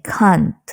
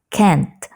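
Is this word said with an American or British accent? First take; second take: British; American. First: It is said with a British accent. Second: It is said with an American accent. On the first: "Tapi kalau dalam British English kita bilangnya can't" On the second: "Dalam American English kita bilangnya can't, jadi lebih ke e"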